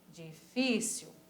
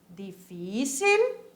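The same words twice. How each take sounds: First: The word is pronounced with Portuguese sounds. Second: The word is pronounced with Spanish sounds.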